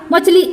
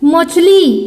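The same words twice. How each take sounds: First: The final vowel is short. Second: The final vowel is long. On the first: The speaker calls it wrong. "ऐसा किया क्या? नहीं" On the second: The speaker calls it right. "यानी दीर्घ उच्चारण"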